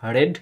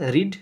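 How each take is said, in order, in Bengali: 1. স্বরধ্বনিটি হ্রস্ব, 'red'-এর মতো। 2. স্বরধ্বনিটি দীর্ঘ, 'reed'-এর মতো। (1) "শুধু উচ্চারণটা আলাদা যাবে" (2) "রিডের তিনটে ফর্মই এক, শুধু উচ্চারণটা আলাদা যাবে"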